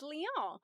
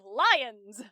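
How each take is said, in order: First: It is said in a French-like way. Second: It is said like the English word lions. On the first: The speaker calls it right. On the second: The speaker calls it wrong.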